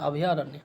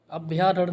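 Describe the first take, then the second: First: "अभयारण्य" with भ and या as separate syllables; correct form. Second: "अभ्यारण्य" with भ्या as one cluster; wrong form. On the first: Teacher correcting students, separated syllables. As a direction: give भ its own vowel in "अभयारण्य". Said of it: "ये होता है". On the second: Teacher quoting the mistake, clustered bhya. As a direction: run भ and या together in "अभ्यारण्य". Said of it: "अभ्यारण्य नहीं होता". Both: Shown as a demonstration.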